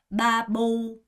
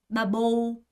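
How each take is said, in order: No difference in how they are said.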